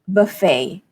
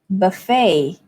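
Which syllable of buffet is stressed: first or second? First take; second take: second; second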